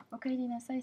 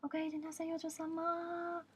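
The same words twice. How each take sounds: First: Said in the usual way. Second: High, very slow sing-song welcome; drawn-out cutesy maid welcome; imitating maid greeting. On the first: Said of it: "c'est pour dire bienvenue à la maison". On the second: A maid greeting her customer, high and slow. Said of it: "qui te disent".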